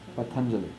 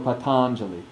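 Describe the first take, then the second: First: The stressed vowel is short and not opened. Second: The stressed vowel is opened and lengthened. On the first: The speaker calls it right. "There's a little bit of a stress as long as we don't really open it up to an ah" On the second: The speaker calls it wrong. "would really open it and lengthen it to confuse us"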